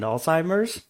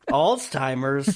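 First: The word is said without a T sound. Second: The word is said with a T sound. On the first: The speaker calls it right. "You mean Alzheimer's?" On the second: The speaker calls it wrong. "There's no T in that word"

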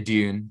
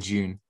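First: The word is said the American way. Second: The word is said the British way. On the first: "I think the Americans would say Dune" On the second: "here in the UK we'd say Dune"

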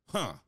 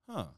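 First: It sounds closed off and dismissive. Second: It sounds open and curious.

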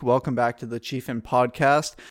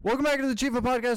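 First: The phrase is spoken at a normal pace. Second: The phrase is spoken very quickly.

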